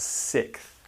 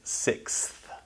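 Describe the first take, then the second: First: Only a k sound comes before th. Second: The full ks sound comes before th. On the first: "The X becomes a K sound" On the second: "technically you can pronounce it sixth, but most people don't really pronounce it that way"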